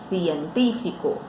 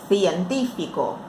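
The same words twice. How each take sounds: No difference in how they are said.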